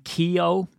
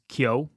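First: "Keogh" as KEE-oh; higher, two full syllables in "Keogh"; common mispronunciation. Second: "Kyo" as one syllable, KYOH; "Kyo" squeezed into a single beat; correct pronunciation. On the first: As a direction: say "Keogh" as key-oh. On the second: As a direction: say "Kyo" short, no "kee". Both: Shown as a demonstration. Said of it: "names that are mispronounced".

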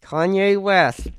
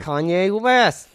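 First: [name] said slow again with West pushed louder; slow deliberate. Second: [name] said slow and careful through a wired jaw; slow deliberate. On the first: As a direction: press out [name] once more, slowly. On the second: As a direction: force out [name] word by word. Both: Acted. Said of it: "let me get through this".

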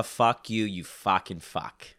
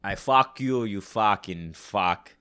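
First: Thick Boston accent, slow drawn fucking. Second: Boston accent with Arnold Schwarzenegger edge, loud; Boston tough guy crossed with Arnold. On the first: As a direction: tough Boston guy swearing. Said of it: "that's how I get into my Bostonian accent". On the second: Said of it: "almost a mixture between Boston and Arnold". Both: Shown as a demonstration.

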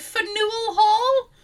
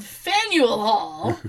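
First: "Faneuil Hall" as fuh-NOO-ul hall, high and slow; tourist mispronunciation. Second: "Faneuil Hall" said FAN-yul hall, slowly; local pronunciation. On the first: Tourist repeating the name, "Faneuil Hall" mispronounced fuh-NOO-ul hall. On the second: Local correcting tourists, "Faneuil Hall" said FAN-yul hall. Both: Retold or imitated. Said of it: "that's called Faneuil Hall".

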